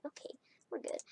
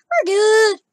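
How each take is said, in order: First: Hushed whisper to herself. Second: Loud high exclaim; arguing with myself. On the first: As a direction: whisper it under your breath. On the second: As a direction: shout it back at yourself. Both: Real, not acted. Reassuring herself, then shouting.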